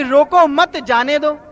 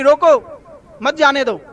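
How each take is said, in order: First: "रोको मत" run together with "मत" stressed, then "जाने दो". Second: "रोको", a break, then "मत जाने दो" as one order; pause after रोको. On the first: Man quotes the order back as misheard, "मत" joined to "रोको". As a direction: lean on "मत", joining it to "रोको". Same words misread as let him go. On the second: Bystander orders a runner stopped, pause after "रोको". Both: Shown as a demonstration.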